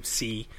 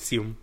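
First: "si" as in Spanish, no m; Spanish-style si. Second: "sim", ending through the nose, not as "si"; Portuguese sim. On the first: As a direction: say "si" with a clean open ee ending. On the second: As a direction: say "sim" with the ee closing toward m. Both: Shown as a demonstration. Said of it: "You don't say si, it's sim".

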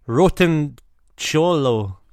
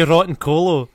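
First: "cholo" begun with a ch sound; hesitant "rotten", pause, then "cholo" with ch; unsure pronunciation. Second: "colo" begun with a hard k; intended pronunciation. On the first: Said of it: "don't know how to say". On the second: Reader showing what was in his head, "colo" with hard c. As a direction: say "rotten colo" fluently, hard c. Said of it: "I was gonna say". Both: Shown as a demonstration.

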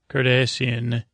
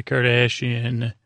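First: "Cardassian" with an s sound, no sh; corrected to Cardassian. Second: "Kardashian" with a sh sound in the middle; mispronounced Kardashian. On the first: Podcaster corrects the alien race's name, "Cardassian" with s. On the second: Podcaster slips on an alien race's name, "Kardashian" with sh. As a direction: say "Kardashian" like the celebrity surname. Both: Real, not acted.

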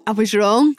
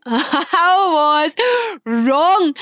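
First: Said in the usual way. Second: "I was wrong" drawn out very slowly through a laugh, higher. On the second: Real, not acted. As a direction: stretch "was" out while laughing.

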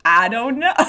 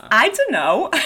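First: New York attempt slipping into Southern; Dora's line with a stray Southern twang; accidental Southern accent. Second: Put-on second go at a New York accent; Dora's line in amateur New York accent; attempted New York accent. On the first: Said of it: "can't do the New York accent Southern". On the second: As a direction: try the line as a New Yorker. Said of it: "when I can't do the New York accent".

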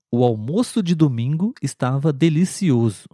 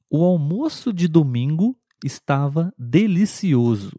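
First: Almoço said again with a closed o. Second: Almoço with a closed, rounded o. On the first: Teacher repeats the noun sentence for students. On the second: Teacher reads the noun sentence aloud. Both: Shown as a demonstration. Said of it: "um pouquinho mais fechado".

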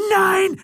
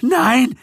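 First: Very high, shrieked no; frantic scream. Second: High, loud panicked no; panicked denial. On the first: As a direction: scream beside himself. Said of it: "schrie Gildritch außer sich". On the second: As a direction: cry out in panic. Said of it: "Gildritches Stimme klang panisch". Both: A narrator's reading.

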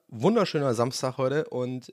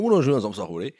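First: Said in the usual way. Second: "Wunderschöner Samstag" mit breitem Hamburger Akzent, "Samstag" lang gezogen. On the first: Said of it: "einen ganz komischen Hamburger Akzent". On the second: Shown as a demonstration. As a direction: spiel den Hamburger Akzent, wie "Wunderschöner" norddeutsch rollt. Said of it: "ganz komischen Hamburger Akzent". (Hamburger Akzent, leicht übertrieben)

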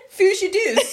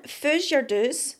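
First: Laughing Doric accent. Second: Doric accent. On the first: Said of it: "Say that again". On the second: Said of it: "Here's another one". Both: Shown as a demonstration.

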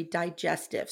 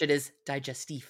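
First: "digestive" said dye-JES-tiv; "digestive" with English vowels and a final v. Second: "digestif" said dee-zhes-TEEF; "digestif" with French final f and stress at the end. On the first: Real, not acted. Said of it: "If you're French, it is digestif". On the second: Shown as a demonstration. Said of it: "If you're French".

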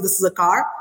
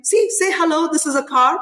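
First: Lightly imitated London accent on "car"; a hint of a little boy's British accent. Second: Raised pitch, eager prompting; excited showing-off. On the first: Mother quoting her small son, lightly British accent. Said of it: "the way he said car was, like, so British". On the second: Retold or imitated. Mother showing her son off to her parents, excited prompting. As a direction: coax a small child to perform for listeners. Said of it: "calling my parents and saying".

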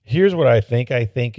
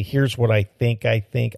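First: Said in the usual way. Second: Peter King catchphrase. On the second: Retold or imitated. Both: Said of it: "as Peter King would say".

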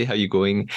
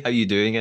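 First: Lightly put-on Australian phrasing; a half-hearted, bad Australian accent. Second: Said in the usual way. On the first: Shown as a demonstration. Host joking with co-host, bad Australian accent. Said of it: "in a bad Australian accent". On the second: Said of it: "I can't say".

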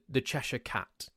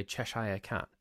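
First: Said in the usual way. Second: Cheshire in Cheshire Cat ending like "shyer"; American pronunciation. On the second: Shown as a demonstration. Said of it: "Americans will say".

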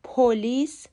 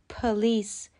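First: پلیس with a full o, po-LEECE; the common error, پلیس with a round o; پلیس, first vowel a clear o; wrong pronunciation. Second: پلیس with a schwa, puh-LEECE; the correct پلیس, first vowel reduced; پلیس, quick uh and then a stressed LEECE; correct pronunciation. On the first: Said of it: "پلیس غلطه". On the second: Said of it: "تلفظ صحیح". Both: Shown as a demonstration.

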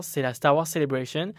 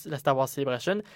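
First: Put-on English accent. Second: Said in the usual way. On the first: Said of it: "Pourquoi je prends un accent anglais?".

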